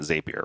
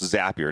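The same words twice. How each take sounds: First: The name does not rhyme with happier. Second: The name rhymes with the word happier. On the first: The speaker calls it wrong. "not Zapier" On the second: The speaker calls it right. "it's pronounced Zapier"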